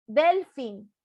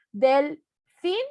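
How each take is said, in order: First: DELfin with a strong DEL, fin falling; stress on first syllable. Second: Delfín slow and split, FIN rising as a question; stress on last syllable. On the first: Teacher contrasting intonations for the class, stress on DEL. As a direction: punch the DEL of delfín and drop fin. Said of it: "cómo es diferente la entonación". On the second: Teacher testing intonation for the class, questioning stress on FIN. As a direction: draw out delfín, lifting the final FIN. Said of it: "hago el jueguito de la entonación". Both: Shown as a demonstration.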